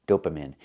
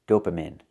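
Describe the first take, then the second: No difference in how they are said.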